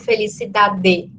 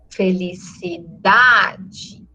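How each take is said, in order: First: The final vowel is full and strong. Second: The final vowel is weak and reduced. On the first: The speaker calls it wrong. "Eu não falo felicidade" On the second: The speaker calls it right. "a vogal da última sílaba vira uma semivogal. Ela perde intensidade"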